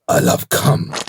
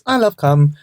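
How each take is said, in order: First: It is said firmly, ending with a definite stop. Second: It is said casually, without a firm final stop.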